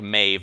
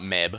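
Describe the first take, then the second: First: The name ends with a v sound. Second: The name ends with a b sound. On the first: The speaker calls it right. "if you're pronouncing it right, it's pronounced like Maeve" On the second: The speaker calls it wrong. "not Meb"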